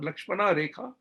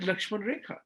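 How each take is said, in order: First: The name ends with an extra final vowel. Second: The name ends without a final vowel. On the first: The speaker calls it wrong. "It's not Lakshmana Rekha" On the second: The speaker calls it right. "according to Hindi Sanskrit pronunciation, it's Lakshman"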